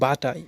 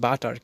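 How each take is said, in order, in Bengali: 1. এতে একটি 't' আছে এবং 'r' ছাড়া শেষ হয়। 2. এতে একটি শক্ত 't' আছে এবং 'ar' দিয়ে শেষ হয়। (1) "বাটার উচ্চারণ হবে না, বাটা" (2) "আমরা উচ্চারণ করি বাটার"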